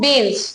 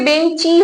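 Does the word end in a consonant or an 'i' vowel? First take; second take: consonant; i vowel. First: The word ends without a final vowel. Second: The word ends with an added 'i' vowel. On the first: "এখানে কিন্তু কোনো শেষের দিকে কোনো স্বরধ্বনি উচ্চারণ হচ্ছে না" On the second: "লাস্টে একটা ই স্বরধ্বনি আসছে"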